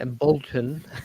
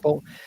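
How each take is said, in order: First: The name is said as it is spelled. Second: The name is said the local way. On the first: The speaker calls it wrong. "if you pronounce it in how it might, ... that's not it at all" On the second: The speaker calls it right. "did I say that right?"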